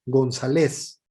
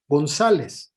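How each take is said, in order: First: González stressed on its final LES; stress on last syllable. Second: González with ZA stressed; stress on second syllable. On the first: Teacher showing the surname without its accent, final LES stressed in González. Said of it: "se tendría que pronunciar". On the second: Teacher showing the accented surname to students, stress on ZA in González. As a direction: say González as gon-ZA-les, penultimate stress. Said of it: "va con acento". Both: Shown as a demonstration.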